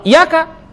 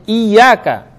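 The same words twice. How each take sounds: First: "iyyaka" with a single short y, like iyaka; without tasydid. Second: "iyyaka" with a doubled, held y; with tasydid. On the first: Preacher showing the wrong reading, "iyyaka" with a single short y. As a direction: drop the doubling in "iyyaka". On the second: Preacher teaching correct recitation, "iyyaka" with held double y. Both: Shown as a demonstration. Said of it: "Harus ada tasdidnya".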